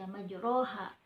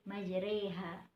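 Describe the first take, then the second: First: The vowel after r is a plain open a. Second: The vowel after r leans toward an e. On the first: The speaker calls it wrong. "ro-nya bukan dibaca majroha" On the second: The speaker calls it right. "hukum bacaan imalah yaitu Bismillahimajreha"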